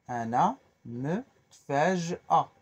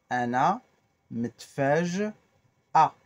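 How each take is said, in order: The two takes are said the same way.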